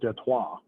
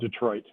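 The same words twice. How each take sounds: First: It is said with a French pronunciation. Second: It is said with an American pronunciation.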